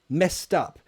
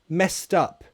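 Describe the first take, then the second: First: The ending is a t, linked into 'up'. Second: The ending is a t, linked into 'up'.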